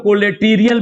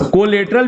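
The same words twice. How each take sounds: First: "कोलेटीरियल" with a long "tee", ko-le-TEE-ri-yal; alternative pronunciation. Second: "कोलेटरल" with a short, reduced ending, ko-LET-ral; alternative pronunciation. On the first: Teacher shows students the other variant, "कोलेटीरियल" pronounced ko-le-tee-ri-yal. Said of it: "भी कहते हैं". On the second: Teacher shows students one common variant, "कोलेटरल" pronounced ko-let-ral. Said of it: "भी कहते हैं कुछ लोग". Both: Shown as a demonstration.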